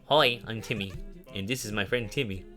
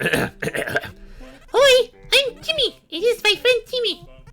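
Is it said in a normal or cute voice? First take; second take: normal; cute. First: It is said in his normal voice. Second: It is said in a cute voice.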